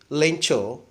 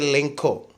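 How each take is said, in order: First: The middle consonant is a ch sound. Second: The middle consonant is a k sound. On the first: The speaker calls it right. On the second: The speaker calls it wrong.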